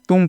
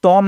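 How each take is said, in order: First: तुम with a short oo vowel; correct pronunciation. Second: तोम with an oh vowel; wrong pronunciation. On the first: Teacher corrects the misreading for learners, correct तुम with short oo. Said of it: "तुम पढ़ना है आपको". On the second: Teacher warns learners off a misreading, wrong तोम with oh. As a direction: say तोम with oh in place of oo. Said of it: "तोम नहीं पढ़ना है". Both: Shown as a demonstration.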